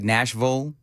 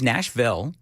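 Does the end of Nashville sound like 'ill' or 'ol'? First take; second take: ol; ill. First: The last syllable is reduced to 'ol'. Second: The last syllable is a full 'ill'. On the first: This is how locals usually say it. "nobody says ill. It's always ol" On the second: A local unexpectedly says it this way. "she says Nashville"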